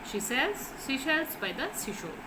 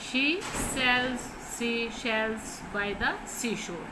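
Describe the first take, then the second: First: The sentence is spoken quickly. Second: The sentence is spoken slowly and carefully. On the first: "आपने fast पढ़ने की इसको कोशिश करनी है।" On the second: "पहले तो आप आहिस्ता आहिस्ता, पहले तो आप ऐसे पढ़ोगे"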